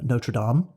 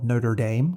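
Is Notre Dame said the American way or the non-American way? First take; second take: non-American; American. First: Notre Dame is said the non-American way. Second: Notre Dame is said the American way.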